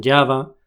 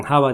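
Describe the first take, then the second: First: "Java" as YA-va, English J; pronunciación inglesa. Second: "Java" with Spanish jota, HA-va; pronunciación española. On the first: ("Java" dicho "yava", a la inglesa) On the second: ("Java" con jota española) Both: Shown as a demonstration. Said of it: "se pronuncian diferente".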